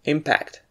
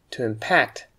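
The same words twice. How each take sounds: First: "impact" with the first syllable stressed, IM-pact. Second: "impact" with the second syllable stressed, im-PACT. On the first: Teacher showing learners the noun, first-syllable stress on "impact". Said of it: "we stress the first syllable". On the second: Teacher showing learners the verb, second-syllable stress on "impact". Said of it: "stress the second syllable". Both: Shown as a demonstration.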